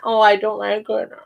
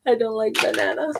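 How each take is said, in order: First: Acted letdown over banana, teacher demo; mock disappointment. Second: Said in the usual way. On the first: Shown as a demonstration. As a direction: play it sadly disappointed for kids. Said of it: "I add fruit to it and I say".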